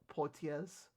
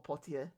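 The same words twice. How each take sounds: First: It is pronounced with an English-style pronunciation. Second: It is pronounced with a French-style pronunciation.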